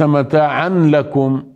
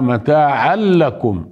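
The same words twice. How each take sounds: First: The merged n sound keeps a nasal hum. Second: The n merges fully into l without nasal hum. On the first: The speaker calls it wrong. "ليس متاعا لكم" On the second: The speaker calls it right. "إدغام كامل بلا غنة"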